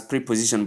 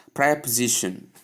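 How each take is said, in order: First: "preposition" with a long "pree" and full "po"; wrong pronunciation. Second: "preposition" with a short first syllable and weak second; corrected pronunciation. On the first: Teacher showing what to avoid, "preposition" said with "pree". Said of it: "It is not pronounced as". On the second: Teacher giving learners the right form, "preposition" said as prep-uh-ZI-shun. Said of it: "It is not pronounced as preposition". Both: Shown as a demonstration.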